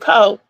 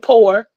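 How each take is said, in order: First: The word ends on a vowel without r. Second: The word ends with a clear r sound. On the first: "but I say po" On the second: "I don't say poor"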